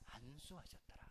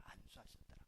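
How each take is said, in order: First: Said in the usual way. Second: Whispered answer, breath only; whispered echo. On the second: Shown as a demonstration. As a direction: whisper the answer back softly. (안수하셨더라를 숨소리로 속삭이듯) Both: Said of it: "어떻게 했다고요?".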